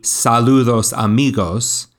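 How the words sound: It is said with a Spanish pronunciation. The title is pronounced as in its source language. "and pronounce it"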